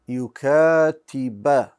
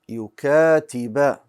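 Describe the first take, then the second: First: The word ends with an 'a' vowel. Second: The word ends with an 'a' vowel.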